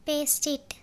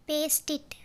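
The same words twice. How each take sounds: The two takes are said the same way.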